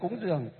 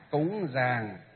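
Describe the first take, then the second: First: It is said in the Southern Vietnamese form. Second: It is said in the Northern Vietnamese form. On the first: The speaker calls it wrong. "Cúng dường là từ miền Nam" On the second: The speaker calls it right. "còn miền Bắc chúng ta là cúng gì?"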